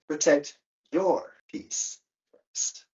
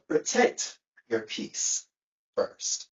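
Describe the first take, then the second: First: The word your carries the main stress. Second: The word protect carries the main stress. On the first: Put your own calm ahead of others' calm. "maybe want to protect this person's peace first" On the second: Guard your calm before exposing it to others. "Before you expose it to anyone else, protect it"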